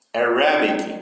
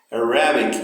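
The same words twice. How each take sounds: First: Arabic, AR strong and the rest light; stress on AR. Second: Arabic, AR loud and bic light; first-syllable stress on Arabic. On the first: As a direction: punch AR in Arabic. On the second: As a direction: lean on the start of Arabic. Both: Shown as a demonstration. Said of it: "o início também".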